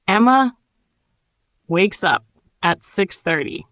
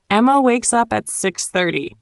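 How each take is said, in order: First: Broken into phrases with long pauses; nice and slow. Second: Said in the usual way. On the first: Shown as a demonstration. Teacher models the sentence for learners, nice and slow. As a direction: leave room after each chunk to repeat. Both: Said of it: "Nice and slow".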